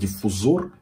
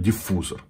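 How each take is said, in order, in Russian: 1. Ударение падает на последний слог. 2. Ударение падает на средний слог. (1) "если вы из тех людей, которые говорят диффузор, блядь, не смотрите" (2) "Правильно говорить диффузор"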